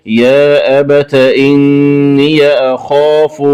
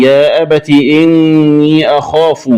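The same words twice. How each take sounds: First: Slow "abata inniya" for أبت إني; open ta and ya. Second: Said in the usual way. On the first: Shown as a demonstration. Teacher showing the variant, أبت إني slow with open endings. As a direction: add short a to أبت and إني, drawn out. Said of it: "بفتح التاء مع فتح ياء الإضافة". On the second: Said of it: "قرأها بفتح التاء".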